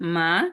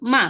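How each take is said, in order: First: The syllable is said with the second tone. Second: The syllable is said with a falling tone. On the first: "দুই নম্বর টোনটা হচ্ছে এটা হচ্ছে, এটা আমার সাথে বলেন।" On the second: "চার নম্বর টোন, এটা ফলিং টোন।"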